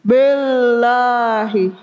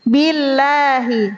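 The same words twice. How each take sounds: First: Billahi, slow, with a thick, heavy "b". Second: Billahi, slow, with a thin, light "bi"; Billahi, the "b" kept crisp and light. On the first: Teacher demonstrates the wrong heavy ba. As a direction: Billahi with the "b" darkened. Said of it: "menebalkan huruf ba". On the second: Teacher models the correct thin ba. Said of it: "Harusnya bi". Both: Shown as a demonstration.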